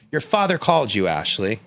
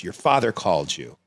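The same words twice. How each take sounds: First: Higher, pressing repeat of the news; raised, emphatic motherly insistence; insistent retold mom. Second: Said in the usual way. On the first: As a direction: imitate a mother insisting, dropping on the name. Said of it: "She goes". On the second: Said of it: "And she goes".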